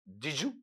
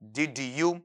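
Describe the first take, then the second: First: The words blend together with a 'j' sound. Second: The words are said separately with clear 'd' and 'y'. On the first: "जब इसे आप connected लेंगे ना" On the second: "अगर अलग अलग में पढ़ता हूं"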